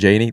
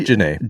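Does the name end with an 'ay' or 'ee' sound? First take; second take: ee; ay. First: The name ends with an 'ee' sound. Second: The name ends with an 'ay' sound. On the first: The speaker calls it wrong. "Last week I pronounced his name as Sean Janey. That's wrong" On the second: The speaker calls it right. "It's Janae"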